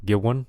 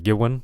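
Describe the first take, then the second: Both takes have the same delivery.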